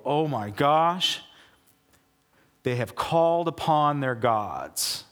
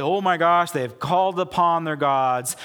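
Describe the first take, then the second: First: Slowed, hushed dread; slow awed gasp. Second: Louder, panicked alarm; loud alarmed cry. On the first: Philistines hearing the Israelite camp, slow hushed dread. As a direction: let the fear sink in slowly. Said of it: "And they go". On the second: Philistines warning each other, louder panicked alarm. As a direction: sound the alarm to the troops. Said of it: "But they say". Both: Retold or imitated.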